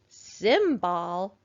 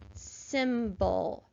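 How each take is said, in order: First: The second syllable has a full short o vowel. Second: The second syllable has a weak uh vowel. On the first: The speaker calls it wrong. "That doesn't sound quite right" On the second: The speaker calls it right. "make that O go uh"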